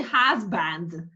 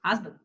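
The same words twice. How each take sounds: First: Husband as HUZ-BAND, with an open A in BAND; wrong full vowel. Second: Husband as HUZ-b'nd, weak second vowel; correct schwa. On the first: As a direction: give both syllables of husband full weight. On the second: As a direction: barely sound the vowel after the B in Husband. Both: Shown as a demonstration. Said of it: "you don't say husband".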